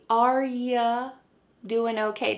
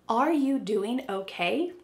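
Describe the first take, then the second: First: The word you is reduced to ya. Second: The word you is said in full. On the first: "sometimes you becomes ya" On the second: "But do they say"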